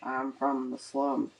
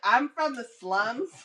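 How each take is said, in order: First: It is mumbled quietly in a low voice. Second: It is said loudly and clearly. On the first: The speaker calls it wrong. "You know I mumble, and I have a low voice" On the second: The speaker calls it right. "You got to be like"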